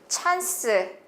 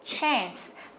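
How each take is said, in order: First: The vowel sounds like an open 'ah'. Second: The vowel sounds like a wide 'eh'. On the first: "물론 찬스라고도 많이 읽으니까요" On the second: "발음기로 봤을 때는 에 발음으로 나왔다"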